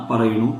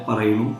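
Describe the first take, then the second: No difference in how they are said.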